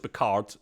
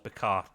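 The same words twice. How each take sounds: First: The name has an English-style pronunciation. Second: The name has a French-style pronunciation. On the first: The speaker calls it wrong. "Everyone goes Picard. It's probably not" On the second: The speaker calls it right. "That's the way the French do it"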